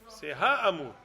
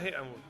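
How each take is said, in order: First: The first vowel is an open 'a' sound. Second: The first vowel is an 'e' sound. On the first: It is the plain definite article before aleph. "Avant le Aleph, c'est Ha Amour" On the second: It is read with segol, as in the Micah verse. "C'est pas He Amour"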